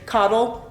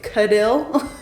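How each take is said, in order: First: The name sounds like the word 'coddle'. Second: The name sounds like 'Cadill', not 'coddle'. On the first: The speaker calls it wrong. "A lot of people say coddle. It's not pronounced that way" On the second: The speaker calls it right. "that is how you say it"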